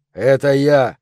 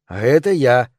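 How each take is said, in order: First: Louder, hard alter ego; firm, forceful second voice; Clyde. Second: The milder of two personalities; lightly contrasted second identity; Brian. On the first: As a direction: announce yourself as the menacing personality. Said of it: "произнёс голос Клайда". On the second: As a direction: answer as the other self, less hard. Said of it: "добавил голос Брайана". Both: A narrator's reading.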